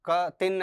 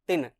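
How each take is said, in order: First: The k is a separate full syllable. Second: A light k joins straight onto tin. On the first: The speaker calls it wrong. "ऐसे बोलेंगे तो गलत होगा" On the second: The speaker calls it right. "का हल्का सा उच्चारण में आ जाता है"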